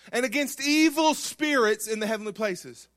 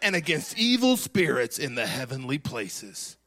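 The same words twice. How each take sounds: First: It is read in a plain, normal voice. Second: It is read in a dramatic movie-trailer voice.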